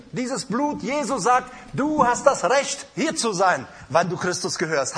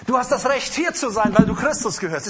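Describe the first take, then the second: First: Said in the usual way. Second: Louder repeat. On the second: Acted. Preacher drives the promise home to the congregation, louder.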